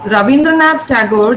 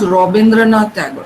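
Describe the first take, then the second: First: The name begins with an 'ah' vowel. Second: The name begins with an 'o' vowel.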